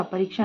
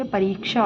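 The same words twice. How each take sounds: First: "परीक्षा" with short "rik"; wrong short i. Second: "परीक्षा" with long "reek"; correct long i. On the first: Teacher shows the mistake, short-i "परीक्षा". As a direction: clip री in "परीक्षा". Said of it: "ना होके". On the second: Teacher gives the correction, long-i "परीक्षा". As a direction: stretch री in "परीक्षा". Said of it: "परीक्षा होता है". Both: Shown as a demonstration.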